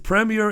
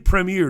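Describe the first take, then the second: First: It is said with a British pronunciation. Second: It is said with an American pronunciation.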